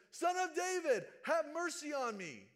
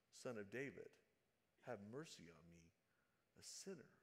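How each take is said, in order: First: Much higher and louder, desperate shout; pleading cry at full voice; shouting even louder. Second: Lower, much softer humble plea; hushed, reverent prayer; quiet plea. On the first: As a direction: yell it over everyone hushing you. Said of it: "And all the more, he says". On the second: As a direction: say it softly, as a confession. Preacher re-reads the beggar's plea. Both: Retold or imitated.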